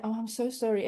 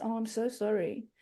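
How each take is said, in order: First: Said in the usual way. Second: Softer, pitying "Oh, I'm so sorry" with a stretched "so"; puppy-dog pity. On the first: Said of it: "people that never met my husband say". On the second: Retold or imitated. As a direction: coo it with a puppy-dog look, quietly. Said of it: "puppy dog looks".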